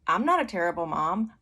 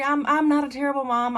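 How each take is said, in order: First: Firm, matter-of-fact denial; settled, unapologetic mother; unaffected. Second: High, loud mock-panicked protest; hammed-up flustered self-defense; anxious pleading. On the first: Retold or imitated. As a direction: state it evenly after a pause, untroubled. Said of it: "it didn't affect me". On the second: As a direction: stammer it out, pitched way up and pleading. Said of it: "like, anxious and".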